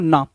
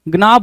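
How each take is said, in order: First: The word begins directly with an n sound. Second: The word begins with a spoken g sound. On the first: The speaker calls it right. "जी वहां पे silent होता है" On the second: The speaker calls it wrong. "गना बोलते हैं कुछ लोग"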